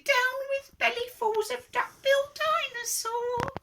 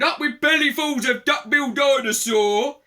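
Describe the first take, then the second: First: Falsetto hooting chant; very high, sing-song protest. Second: Chanted, loud, rhythmic rallying cry; raised, boisterous storybook chant; chanted shout. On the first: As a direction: hoot it like a little duck-billed dinosaur. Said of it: "and he hooted". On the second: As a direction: shout it like a hungry mob's chant. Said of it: "And they shouted". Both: A narrator's reading.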